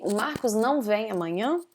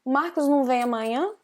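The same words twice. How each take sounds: First: "não" pronounced fully with nasal ow glide; "não" as nasal "nown" before vem; full form of não. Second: "não" reduced to num, quick casual sentence; fast, higher, with "não" shrunk to num. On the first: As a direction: say the sentence with "não" unreduced. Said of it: "it's correct, it's natural Portuguese". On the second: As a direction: say "não" as a short nasal "num". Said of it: "But I could also say". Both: Shown as a demonstration.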